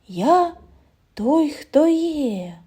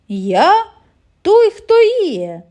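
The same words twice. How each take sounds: First: It is said very quietly, like rustling. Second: It is said in a deep, low voice. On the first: "зовсім тихо, немов прошелестіло листя" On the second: "пролунав глибокий, низький голос"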